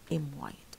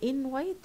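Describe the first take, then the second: First: The first word ends in an m sound. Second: The first word ends in an n sound. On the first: "تبقى" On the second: "بدل"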